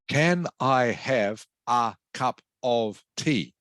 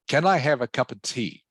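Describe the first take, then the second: First: Every word, including 'of', is said in full form. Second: The word 'of' is reduced and the phrase flows smoothly. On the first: The speaker calls it wrong. "if I was to pronounce every word with strong pronunciation" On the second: The speaker calls it right. "more smooth and fluent"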